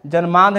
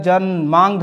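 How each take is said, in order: First: जन्मांध said as "janmaand", plain n before the d; wrong form. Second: जन्मांध with a nasal "maang" before dh; correct form. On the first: Teacher rejecting a misspelling, जन्मांध said as "janmaand". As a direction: say जन्मांध as "jan-maand". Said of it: "जन्मांध नहीं होता है". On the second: Teacher giving students the correction, जन्मांध said as "jan-maangdh". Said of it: "जन्मांध होता है". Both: Shown as a demonstration.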